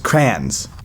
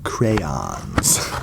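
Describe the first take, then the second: First: It is said in a Midwest accent. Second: It is said in a general accent.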